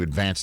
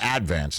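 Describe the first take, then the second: First: The stress is on the second syllable. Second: The stress is on the first syllable. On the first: It is the ordinary word. "It's spelled like the word" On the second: It is the local name of the newspaper. "I don't know why they put the accent on the first syllable"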